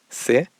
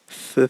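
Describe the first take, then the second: First: It begins with a plain s sound. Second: It begins with a th sound, tongue between teeth. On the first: This is how it is said in Mexico. "estoy diciendo todas con el mismo sonido" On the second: This is how it is said in Spain. "es como eh, meter la lengua entre los dientes"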